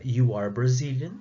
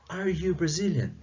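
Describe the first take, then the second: First: Said in the usual way. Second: "are you Brazilian?" lifted higher as a clear question; question tune. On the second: Shown as a demonstration. Teacher contrasting statement and question for students, "are you Brazilian?" raised as a question. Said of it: "a questão interrogativa da".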